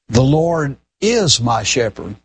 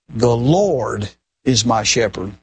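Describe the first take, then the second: First: The stress is on the word is. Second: The stress is on the word Lord.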